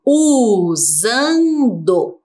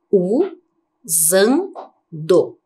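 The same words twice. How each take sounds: First: "Usando" drawn out in one slow run, buzzing z; stretched word. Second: "Usando" in three separate pieces, u, zan, do; split into syllables. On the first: Teacher shows pupils a different S, "Usando" very slowly stretched. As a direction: stretch each sound of "Usando" without breaking it. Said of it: "Olha que diferente". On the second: Teacher isolating the second syllable for pupils, "Usando" broken by pauses. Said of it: "Como que ficou a segunda sílaba?". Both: Shown as a demonstration.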